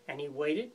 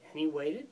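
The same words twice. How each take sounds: The two takes are said the same way.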